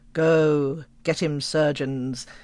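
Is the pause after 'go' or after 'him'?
after go. There is a pause after go.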